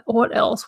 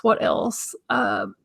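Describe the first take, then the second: First: Said in the usual way. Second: Whispered to herself; whispering. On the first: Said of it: "repeats it to herself". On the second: Real, not acted. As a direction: mutter it under breath. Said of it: "whispered repeat".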